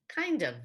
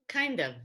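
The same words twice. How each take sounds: The two takes are said the same way.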